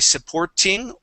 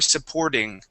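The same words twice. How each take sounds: First: The middle consonant is a clear T sound. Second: The middle consonant is a soft D sound. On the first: "a true T sound" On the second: "switching that to a D"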